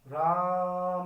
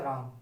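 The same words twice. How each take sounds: First: It is shouted loudly and drawn out. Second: It is said short at normal volume.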